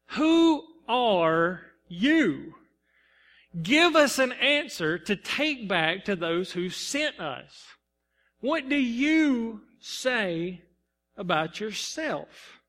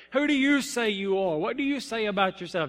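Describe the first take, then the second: First: Slow, pointed questions from the priests; questioning Pharisees. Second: Said in the usual way. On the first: Acted. Pharisees demanding answers of John, slow and pointed. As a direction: draw out each question like a probing envoy. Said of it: "and they say". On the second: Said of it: "I'm asking this for me too".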